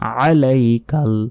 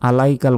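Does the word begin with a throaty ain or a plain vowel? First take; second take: throaty ain; plain vowel. First: The word begins with a throaty ain sound. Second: The word begins with a plain vowel. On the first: The speaker calls it right. "এখানে আছে আইন" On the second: The speaker calls it wrong. "আলাইকাল বললে এখানে আলিফের উচ্চারণ হয়ে গেল"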